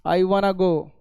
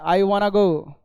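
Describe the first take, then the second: First: 'Want to' is blended into one word, 'wanna'. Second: 'Want to' is blended into one word, 'wanna'.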